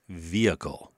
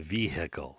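First: The H sound is left out. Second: The H sound is clearly pronounced. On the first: The speaker calls it right. "H is silent" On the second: The speaker calls it wrong. "when you say the H, you sound like an ignorant hillbilly"

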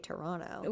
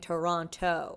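First: The second t is dropped. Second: The second t is clearly pronounced. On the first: This is how locals say it. The speaker calls it right. "I think they say Toronto" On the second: This is how an outsider says it. The speaker calls it wrong. "she kept saying Toronto"

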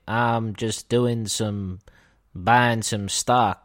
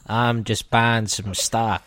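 First: It is said in a put-on Texan accent. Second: It is said in a put-on small character voice. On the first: The speaker is a Texan businessman. "Texan businessman" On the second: The speaker is a little dwarf. "I'm a little dwarf"

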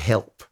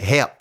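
First: The word is pronounced the ordinary, plain way. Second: The word is pronounced the singer's distinctive way. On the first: "The singer would never say help" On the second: "He would say help"

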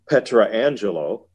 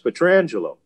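First: The name is split into 'Petra' and 'Angelo'. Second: The name is run together as one word. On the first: The speaker calls it wrong. "why are you pronouncing Alex Petrangelo's name Petra Angelo? It's not that" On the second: The speaker calls it right. "he'll tell you it's Alex Petrangelo"

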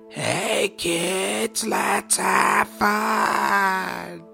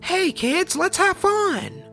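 First: It is said in a slow, distorted voice. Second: It is said in a normal, cheerful voice.

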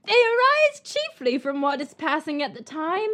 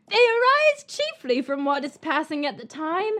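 First: It is read in a put-on character voice. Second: It is read in a put-on character voice.

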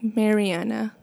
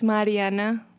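First: The name is said with an English pronunciation. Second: The name is said with a Spanish pronunciation. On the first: The speaker calls it wrong. "but it's like Mariana" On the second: The speaker calls it right. "The real way, if you want to try, it's Mariana"

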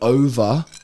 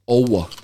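First: It is said in a plain accent with V. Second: It is said in an Indian accent with W. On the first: "instead of saying the word over" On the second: "an Indian will say owa"

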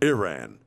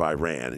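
First: The first syllable sounds like the start of Erin. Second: The first syllable sounds like the word I.

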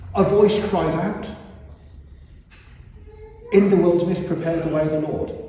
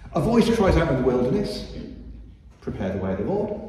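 First: There is a pause after 'cries out'. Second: There is a pause after 'wilderness'.

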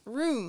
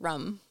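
First: It is said without a Baltimore accent, long vowel. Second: It is said with a Baltimore accent, like rum.

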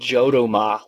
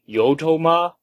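First: The name begins with a hard J sound. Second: The name begins with an H-like sound. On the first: The speaker calls it wrong. "I was calling it Jodoma last week" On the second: The speaker calls it right. "it's like jalapeno"

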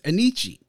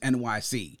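First: It is said as one flowing word. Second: It is said as three separate letters. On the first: It is read the way Italians would say it. "it was being pronounced as Anici" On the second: It is a phonetic spelling of the city's initials. "the way to pronounce it is NYC"

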